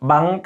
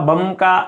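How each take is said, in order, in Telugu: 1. నాసిక ధ్వని 'ng', ఇది వెలార్ రకం, k లో కలిసిపోతుంది. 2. నాసిక ధ్వని 'm', ఇది k నుండి విడిగా ఉంటుంది. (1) "బంక బా కాకు దాపల సున్నా పెడితే ఇంకా బంక అని చదువుతాం" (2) "బాకు సున్నా పెడితే బం క బం క అని చదవకూడదు"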